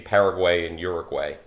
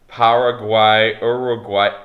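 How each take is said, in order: First: It is said in an American accent. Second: It is said in a Spanish-like accent.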